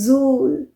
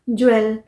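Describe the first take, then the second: First: It starts with 'j' and sounds like 'jool'. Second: It starts with 'jw' and sounds like 'jwel'. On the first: The speaker calls it right. "This word is pronounced as जूल" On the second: The speaker calls it wrong. "नहीं"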